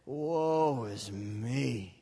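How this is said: It is said in a low, depressed tone. "Let's say that all really depressed"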